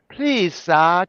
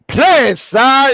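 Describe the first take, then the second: First: It is said in a mild, polite tone. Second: It is said in a harsh, aggressive tone. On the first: "It was like" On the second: "it got really aggressive"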